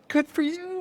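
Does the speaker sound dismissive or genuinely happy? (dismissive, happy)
happy. It is said in a warm, excited tone. The speaker is truly pleased about the news. "Oh my God"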